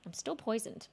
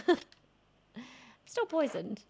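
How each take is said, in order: First: Said in the usual way. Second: Laughing. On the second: Real, not acted. Repeats line laughing.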